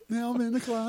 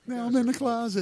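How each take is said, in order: First: High, thin cartoon voice; Tom Cruise impression. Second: High cartoon voice again; Tom Cruise impression. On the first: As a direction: quote it like a cartoon. Quoting Tom Cruise South Park. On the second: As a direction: squeak it out cartoonishly. Repeating the cartoon quote.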